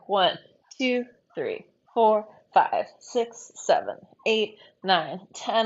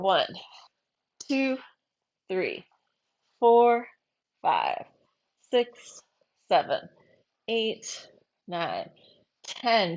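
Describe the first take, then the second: First: The counting is at a medium pace. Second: The counting is at a slow pace.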